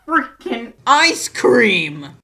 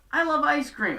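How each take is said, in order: First: Loud, slow, stretched-out groan of disbelief; exasperated outburst. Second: Said in the usual way. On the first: Real, not acted. Vlogger fuming that the dad runs ice cream, loud and slow. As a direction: throw your hands up at the words ice cream.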